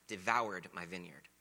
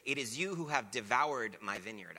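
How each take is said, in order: First: Slow, leaning on "Devoured"; savoring devoured. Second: Said in the usual way. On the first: Shown as a demonstration. Preacher relishes the word he loves, slow stress on "Devoured". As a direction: linger over "Devoured" like tasting it. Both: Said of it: "I love that word".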